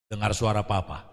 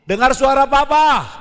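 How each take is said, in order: First: Much softer and lower restating; quiet recap. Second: Louder and higher call up the stairs. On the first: Shown as a demonstration. Preacher recaps the father's words to congregation, quiet. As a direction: drop the voice to repeat the lesson. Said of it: "preacher repeats the instruction softly". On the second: Retold or imitated. Father guides son down the stairs, loud call. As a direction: call it firmly so the child hears.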